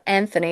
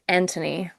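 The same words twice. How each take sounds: First: The name is said with an American accent. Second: The name is said with a British accent.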